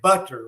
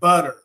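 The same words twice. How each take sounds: First: The middle consonant is a crisp T sound. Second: The middle consonant is a soft D sound. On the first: The speaker calls it wrong. "we don't say butter" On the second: The speaker calls it right. "it's got a D sound"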